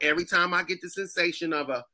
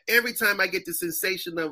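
First: It is said in a Black woman's voice. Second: It is said in a Jamaican accent.

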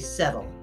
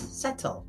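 First: The middle consonant sounds like a soft D. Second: The middle consonant sounds like a crisp T. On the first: "Though we pronounce it like it's D's, we say settle" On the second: "but it's settle. There's two T's"

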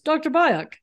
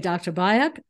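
First: It is said in a put-on interviewer voice. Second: It is said in the speaker's normal voice.

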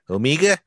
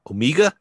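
First: It is said in a New Zealand accent. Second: It is said in the speaker's ordinary accent.

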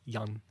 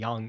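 First: The vowel sounds like the one in 'young'. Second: The vowel sounds like the one in 'bang'. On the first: The speaker calls it right. "It's young with, yes, like a little G" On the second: The speaker calls it wrong. "it's actually not even yang"

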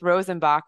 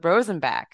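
First: The name is pronounced in a Germanic way. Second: The name is pronounced in an English way. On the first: The speaker calls it wrong. "the more Germanic pronunciation" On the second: The speaker calls it right. "Alex kindly told me it's the Rosenbach"

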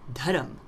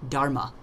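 First: The word ends in a consonant, no final vowel. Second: The word ends in a final a vowel. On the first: The speaker calls it right. "It is a dharam, not a religion" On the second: The speaker calls it wrong. "as we mispronounce it in Western countries"

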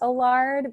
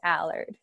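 First: The name is said with a French pronunciation. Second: The name is said with an American pronunciation. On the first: "it is pronounced Allard because it's a French last name" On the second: "the American way is Allard"

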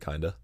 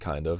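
First: It is blended into one reduced word. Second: It is said as two separate words. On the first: "I'll say kinda. Or I'll kind of make it one word" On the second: "instead of saying kind of"

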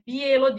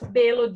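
First: The first vowel is an ie glide. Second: The first vowel is a plain e sound. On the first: The speaker is from the Ijekavian-speaking area. "Onlar i Ekavica kullanıyorlar. Bielo diyecekler" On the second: The speaker is from the Ekavian-speaking area. "Ekavica kullanıyoruz. Belo diyeceğim"

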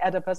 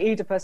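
First: The name is said with an American English pronunciation. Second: The name is said with a British English pronunciation. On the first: "in America they say Oedipus" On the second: "I say Oedipus"

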